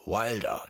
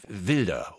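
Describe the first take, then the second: First: Wilder said the English way, W as in wild; English Wilder, rhymes with milder; Wilder, englisch ausgesprochen wie wild. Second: Wilder said the German way, with a V sound; Wilder, deutsch ausgesprochen mit W wie V. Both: Shown as a demonstration. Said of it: "das hört sich bannig englisch an".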